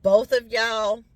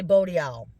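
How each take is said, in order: First: Said in the usual way. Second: "boat y'all" for both of y'all, th dropped to a t; Church Point pronunciation. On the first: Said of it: "we say boat y'all". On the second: Shown as a demonstration. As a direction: Cajun way of saying "boat y'all". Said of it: "where I was from down east in Church Point, we say".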